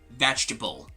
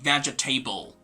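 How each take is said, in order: First: The ending is reduced, unlike the word table. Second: The ending is said like the word table. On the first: The speaker calls it right. "but rather vegetable" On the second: The speaker calls it wrong. "they say vegetable because of the word table at the end"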